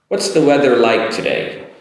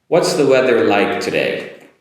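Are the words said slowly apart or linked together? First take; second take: linked together; linked together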